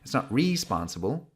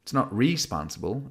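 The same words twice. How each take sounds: The two takes are said the same way.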